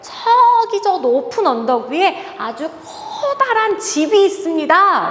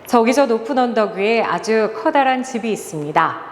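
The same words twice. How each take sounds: First: The words 저기 and 커다란 are stressed expressively. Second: It is read flatly with no word stressed. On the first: The speaker calls it right. "내가 원하지 않아도 저기라고 말하게 되고요. 커다란이라고 말하게 되죠" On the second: The speaker calls it wrong. "단 한 번도 움직이지 않고 손을 이렇게 모으고 읽는다고"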